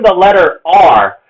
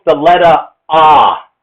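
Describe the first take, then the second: First: Said in the usual way. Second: British "the letter ah", R's dropped; the letter ah in a British accent; British R-dropping. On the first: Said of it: "Even the letter R". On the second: Shown as a demonstration. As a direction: say "letter" as lettuh and R as ah, British-style. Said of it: "is pronounced the letter ah".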